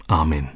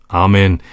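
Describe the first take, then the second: First: Soft, low amen; heartfelt. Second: Firm, measured amen; affirming. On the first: Nico answers the psalm, soft and deeply heartfelt. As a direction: say it quietly from the heart. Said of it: "sagte wieder jemand aus tiefstem Herzen". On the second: Father confirms his child's Bible quote, firmly. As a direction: confirm it with conviction. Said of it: "bekräftigte ihr Vater". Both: A narrator's reading.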